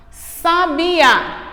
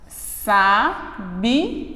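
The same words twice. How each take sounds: First: Said in the usual way. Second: Sabiá split as sa-bi-a; syllables split. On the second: Shown as a demonstration. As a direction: break Sabiá into sa-bi-a. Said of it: "quando eu separo fica". (sabiá separado em sílabas)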